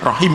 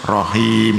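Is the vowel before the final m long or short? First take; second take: short; long. First: The vowel before the final m is short. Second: The vowel before the final m is long. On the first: The speaker calls it wrong. "tidak boleh rahim" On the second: The speaker calls it right. "Rahimun kan panjang, maka wakafnya harus rahim"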